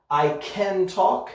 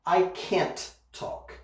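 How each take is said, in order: First: CAN with a firm C, voice lifting on talk; emphasis on the C. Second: CAN'T slowly, with a crisp final T before talk; emphasis on the T. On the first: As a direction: hit the C at the start of "can". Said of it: "the emphasis goes on the C". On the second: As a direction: land hard on the T ending "can't". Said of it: "The emphasis goes on the T". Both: Shown as a demonstration.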